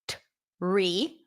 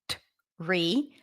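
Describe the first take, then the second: First: The word begins with a clear t sound. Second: The same.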